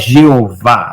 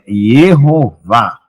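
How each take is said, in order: First: The name begins with a J sound. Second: The name begins with a Y sound. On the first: The speaker calls it wrong. "Não é Jeová" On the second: The speaker calls it right. "o Y foi, é, era, tinha som de I mesmo"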